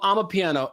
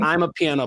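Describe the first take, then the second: First: It begins with an open 'ah' sound. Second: It begins with an 'eye' sound, like 'I'm'. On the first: The speaker calls it right. "but it's called ama piano" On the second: The speaker calls it wrong. "Not I'm a piano"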